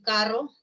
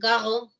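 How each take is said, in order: First: The r is trilled with the tongue tip. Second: The r is made at the back of the mouth. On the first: This is the standard pronunciation. The speaker calls it right. "en vez de decir carro" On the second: This shows a speech difficulty called rotacismo. The speaker calls it wrong. "dicen carro"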